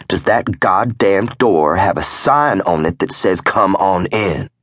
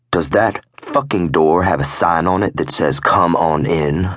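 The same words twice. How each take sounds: First: Angry repeated demand. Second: Irritated growl, only mildly raised; growled demand. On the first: Club member repeating his question to the prospect, angry demand. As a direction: press the question harder, pitched up. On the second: Club member challenging the prospect at the door, growled. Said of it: "I growled". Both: A narrator's reading.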